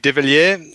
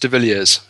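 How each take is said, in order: First: The surname is said with French pronunciation. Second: The surname is said with South African pronunciation. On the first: "If we were French, it would be" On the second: "being from South Africa, it's pronounced"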